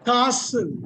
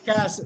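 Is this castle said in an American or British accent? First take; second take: British; American. First: It is said with a British accent. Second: It is said with an American accent. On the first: "யூகேல வந்து காசல்மாங்க" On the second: "யூஎஸ்ல கேசல்மாங்க"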